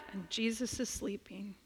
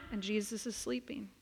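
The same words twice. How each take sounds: The two takes are said the same way.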